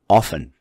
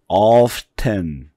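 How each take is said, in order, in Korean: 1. T 소리가 중간에서 빠집니다. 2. T 소리가 중간에 발음됩니다. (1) "아싸리 T자가 사라지는 경우도 많아요" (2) "이렇게 발음하는 경우도 있고"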